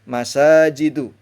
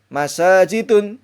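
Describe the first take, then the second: First: The word ends on a vowel without n. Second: The word ends with an added n sound. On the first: The speaker calls it right. "Maka cara membacanya mafatihu masajidu" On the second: The speaker calls it wrong. "tidak boleh, haram ya"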